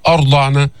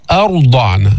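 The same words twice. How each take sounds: First: أرضعن with a thick, dark opening a; wrong demo of أرضعن, heavy hamza; wrongly heavy hamza. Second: أرضعن starting on a thin, light a; light hamza. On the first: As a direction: thicken the first sound of أرضعن. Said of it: "ما تفخم الهمزة في أرضعن". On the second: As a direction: keep the first vowel of أرضعن light before a heavy r. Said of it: "ما تفخم الهمزة". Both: Shown as a demonstration.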